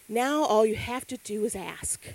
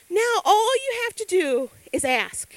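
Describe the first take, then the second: First: Said in the usual way. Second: Now all you have to do is ask, higher and louder; emphatic repeat. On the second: Shown as a demonstration. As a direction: hammer the line home.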